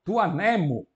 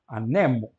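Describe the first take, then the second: First: "anemo" stressed on the first syllable, a; "anemo" accented on the antepenult; Greek stress shift. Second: "Anemo" stressed on the middle syllable, ne; "Anemo" with the accent moved to the penult; Greek stress shift. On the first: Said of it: "o acento passou da antepenúltima para a penúltima". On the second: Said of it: "porque a última é longa". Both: Shown as a demonstration.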